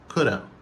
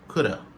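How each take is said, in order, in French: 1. Les mots se fondent en un seul mot rapide et réduit. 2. Les mots se fondent en un seul mot rapide et réduit.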